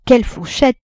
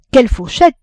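First: Wide-eyed wonder, pitched higher; a child gasping at how much she eats; amazed child. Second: Put-on amazed child. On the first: L'enfant ébahi devant la Vatnaz, émerveillé. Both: A narrator's reading. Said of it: "répétait l'enfant, le cœur ébahi".

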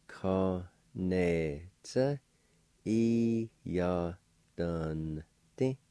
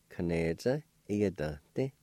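First: Ka, ne, tsa, E, ya, dun, ti each set apart; syllable by syllable. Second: Said in the usual way. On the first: Shown as a demonstration. Teacher repeats both parts for learners, syllable by syllable. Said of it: "pronounced like this". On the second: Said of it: "I'll pronounce these words".

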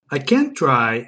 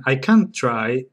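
First: "can't" said with the flat a of "can"; first take, American-style "can't" before "try"; American vowel. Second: Slow "can't" with broad English ah. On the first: Showing the English solved the problem, American vowel. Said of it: "are now perfectly distinguishable". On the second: Showing the words are distinguishable, English "can't". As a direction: draw out "can't" as "cahnt" before "try". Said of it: "the English solved the problem". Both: Shown as a demonstration.

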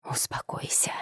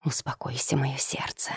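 First: Soft unvoiced whisper. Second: Tender hushed whisper. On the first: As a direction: breathe it out gently. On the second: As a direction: whisper it softly to calm her. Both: A narrator's reading. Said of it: "продолжал нашёптывать Влад".

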